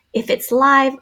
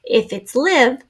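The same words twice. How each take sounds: First: "live" said laɪv, long I like "five". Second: "live" said lɪv, short i like "give". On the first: Teacher showing the long I reading of "live". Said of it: "the E does two jobs". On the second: Teacher showing the short i reading of "live". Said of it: "the E is just protecting the V". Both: Shown as a demonstration.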